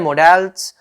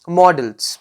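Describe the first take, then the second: First: Modals again as "mo-dals" with a long o, said as the second variant. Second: Modals said as "models", with a short o like the English word models; third way, models. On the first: Teacher shows the class a second pronunciation of modals. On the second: Teacher shows the students the "models" pronunciation. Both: Shown as a demonstration. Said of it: "ये तीन प्रोनंसिएशंस हैं".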